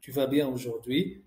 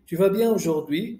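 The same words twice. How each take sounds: First: Said in the usual way. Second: "Tu vas bien aujourd'hui" as a louder question, rising at the end; demonstrated questioning tune on "Tu vas bien aujourd'hui", raised and emphatic; question intonation. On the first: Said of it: "the declarative sentence". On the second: Shown as a demonstration. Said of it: "je fais l'intonation de question".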